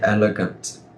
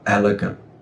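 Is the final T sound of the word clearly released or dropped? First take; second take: released; dropped. First: The final T sound is clearly pronounced. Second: The final T sound is dropped. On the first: The speaker calls it wrong. "Don't say elegant" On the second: The speaker calls it right. "I'm going to recommend you drop that and we go with elegant"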